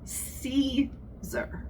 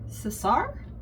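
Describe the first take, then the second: First: It is said with an English pronunciation. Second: It is said with a Spanish pronunciation. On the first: "Caesar in English" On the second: "thar in Spanish with the emphasis on the second syllable"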